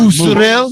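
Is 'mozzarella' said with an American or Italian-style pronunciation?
Italian-style. It is said with an exaggerated Italian-style pronunciation. The speaker calls it wrong. "when people say mozzarella cheese. Oh, you want some"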